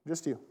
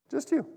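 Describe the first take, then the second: First: Soft emphasis. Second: Higher echo. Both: Real, not acted.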